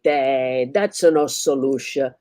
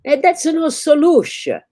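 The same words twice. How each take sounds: First: Slow, dismissive Italian shrug; Italian barber brushing it off, slow; Italian accent. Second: Loud, high Italian repeat of "that's no solution". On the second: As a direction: shout it again in an Italian accent. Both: Acted. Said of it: "like a loud Italian".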